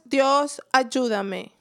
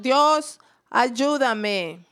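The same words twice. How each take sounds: First: Said in the usual way. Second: Mild shout. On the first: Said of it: "Yo sé que pueden hacerlo mejor". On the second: Shown as a demonstration. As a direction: lead the crowd in a held-back shout. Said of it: "Vamos a gritar". (grito moderado para animar)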